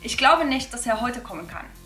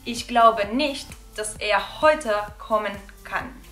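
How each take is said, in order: First: It is said a bit faster. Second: It is said slowly.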